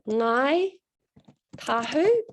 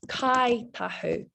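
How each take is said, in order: First: The name begins with an ng sound. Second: The name begins with a k sound. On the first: This is the general form others use. "So they're called Ngai Tahu" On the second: This is how the tribe names itself. "instead of using this N G, they replace that with a K"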